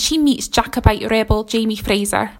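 It is said in a put-on Scottish accent.

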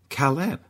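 The name is said with French pronunciation. The speaker calls it wrong. "used the French inflection of his name and called him Caleb"

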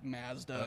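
The word is said with a Canadian pronunciation. This is how Canadians say it. "we say like Mazda"

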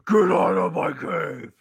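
It is said in Nolan's gravelly Batman voice.

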